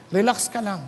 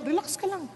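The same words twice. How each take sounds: First: Low, calm "relax ka lang"; low reassurance. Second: "relax ka lang" said much softer; quiet "relax ka lang"; soft reassurance. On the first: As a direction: settle "relax ka lang" deep. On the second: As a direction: ease them down with "relax ka lang" almost hushed. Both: Shown as a demonstration.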